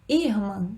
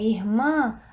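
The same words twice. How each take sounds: First: The stress is on the first syllable. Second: The stress is on the last syllable. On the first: The speaker calls it wrong. "É o ir?" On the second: The speaker calls it right. "A sílaba tônica é o mã"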